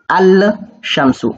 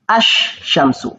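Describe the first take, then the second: First: An L sound is heard before the sh. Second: No L sound; the sh is doubled. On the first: The speaker calls it wrong. "je ne vais pas lire Al Shamsu. Non, ce n'est pas Al Shamsu" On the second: The speaker calls it right. "si on ne lit pas le lam, ... ça donne H Shamsu"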